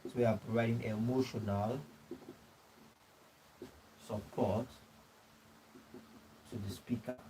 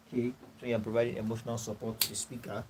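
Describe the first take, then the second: First: Soft, word groups with long pauses; feed the phrase piece by piece for note-taking; dictating slowly. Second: Said in the usual way. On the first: Real, not acted. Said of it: "dictating notes to the class". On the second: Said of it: "repeats in one breath after dictation".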